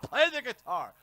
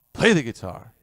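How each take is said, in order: First: High, pushy fan demanding "Play the guitar."; mock demanding fan. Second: Said in the usual way. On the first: Viewer nagging the streamer to play, mock demand.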